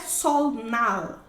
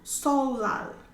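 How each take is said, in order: First: The middle consonants are pronounced L then N. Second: The middle consonants are pronounced as a double L. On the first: The speaker calls it wrong. "você não tem N, não é solnal" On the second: The speaker calls it right. "é solal"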